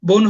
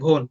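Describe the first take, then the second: First: The first consonant is plain and unaspirated. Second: The first consonant is breathy and aspirated.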